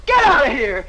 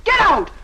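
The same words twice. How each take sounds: First: Loud barked order; angry shout. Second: Much higher, loud order; shrill shout. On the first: Kitty shouting at the suitor to leave, loud. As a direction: throw him out. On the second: Kitty screaming at the suitor to get out, high. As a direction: scream him out the door. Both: Acted.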